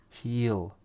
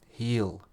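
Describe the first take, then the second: Both takes have the same delivery.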